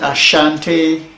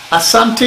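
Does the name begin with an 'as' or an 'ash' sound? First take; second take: ash; as. First: The middle consonant is an sh sound. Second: The middle consonant is a plain s sound. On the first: This is the form the English colonizers gave. "as a colonial masters give it to us" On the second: This is the people's own name for themselves. "Asante is what we really call ourselves"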